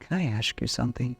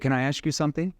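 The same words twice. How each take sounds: First: The voice is low, soft and concerned. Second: The voice is bright, casual and unconcerned. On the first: The speaker cares and is not confrontational. The speaker calls it right. "I lower my tone and concern tone" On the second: The speaker may make the listener defensive. The speaker calls it wrong. "rather than like, hey"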